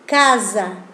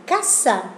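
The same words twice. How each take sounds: First: Casa with a soft z sound in the middle; Casa in Italian, sweet and soft. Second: Casa with a sharp Spanish s; casa in Spanish, dry s. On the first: (Casa en italiano, dulce, con s sonora) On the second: (casa en español, s sorda) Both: Shown as a demonstration. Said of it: "la pronunciación de casa en italiano es más dulce".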